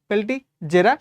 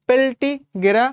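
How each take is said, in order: First: The middle consonant is a j sound. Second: The middle consonant is a hard g sound. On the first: "তুমি উচ্চারণ করবো আজ থেকে পেলটিজেরা" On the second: "পেলটিগেরা না বলে"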